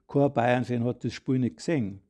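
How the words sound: The stress falls on the word gesehen. Nobody saw the game. "die Betonung ist auf dem Gesehen und nicht auf dem Nicht"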